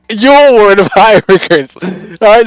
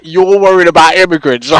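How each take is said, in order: First: Mocking laugh. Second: Said in the usual way. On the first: Repeats line, laughing at the viewer.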